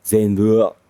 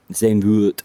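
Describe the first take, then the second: First: Zandvoort said as ZAYN-vuh, falling; Dutch pronunciation. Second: Zandvoort said as ZAYN-voot, even; settled pronunciation. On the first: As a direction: say Zandvoort slowly, Dutch style. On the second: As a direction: say Zandvoort plainly, anglicised. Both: Shown as a demonstration. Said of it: "It's Dutch, so it'll be".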